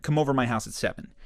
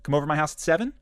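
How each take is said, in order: First: "seven" falls at the end, said as a command; falling tune. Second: "seven" ends on an upward inflection like an invitation; rising tune. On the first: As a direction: state it firmly, letting "seven" drop. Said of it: "do it with a downward inflection". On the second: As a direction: ask it, lifting "seven" at the end. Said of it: "this is the difference between saying". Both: Shown as a demonstration.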